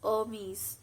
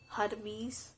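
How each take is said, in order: First: The first H sound is left silent. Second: The first H sound is pronounced. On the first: The speaker calls it right. "H here is silent" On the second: The speaker calls it wrong. "It's not Hermes"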